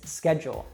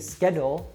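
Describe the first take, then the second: First: The middle consonant is a J sound. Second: The middle consonant is a plain D sound. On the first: "we changed that D to a J sound" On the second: "instead of it being schedule"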